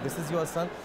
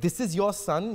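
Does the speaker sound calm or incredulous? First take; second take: calm; incredulous. First: It sounds calm and matter-of-fact. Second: It sounds shocked and disbelieving. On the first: The speaker hides any doubt. "I said" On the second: The speaker doubts the claim. "but I didn't say it like that"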